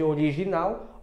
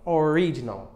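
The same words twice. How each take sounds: First: "original" as o-ri-zhi-NAU; Portuguese pronunciation. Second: "original" as o-RI-ji-nul, English r; English pronunciation. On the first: Teacher showing what it replaces, Portuguese pronunciation. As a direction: say "original" in Portuguese, stressed at the end. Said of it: "Ao invés de original". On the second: Teacher showing the pronunciation that changes, English pronunciation. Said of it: "a pronúncia que muda". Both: Shown as a demonstration.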